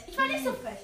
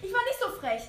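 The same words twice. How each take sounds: First: Lightly higher mock baby voice. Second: Said in the usual way. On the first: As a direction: playfully pretend to be the cheeky baby zombie. (gespielte leichte Babystimme) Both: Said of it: "Ich bin das Baby".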